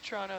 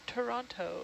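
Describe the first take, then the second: First: The T sounds are dropped or blurred. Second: The T sounds are clearly pronounced. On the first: This is how locals casually say it. "There's no T's in Toronto" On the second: This is said carefully so outsiders understand.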